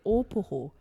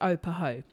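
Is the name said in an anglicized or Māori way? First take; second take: Māori; anglicized. First: The name is said with Māori pronunciation. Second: The name is said in an anglicized, lazy way. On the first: This is how it was originally pronounced. The speaker calls it right. "the Europeans would have said opoho... they would have pronounced it right" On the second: This is the lazy modern pronunciation. The speaker calls it wrong. "it's always been pronounced opoho, when it hasn't"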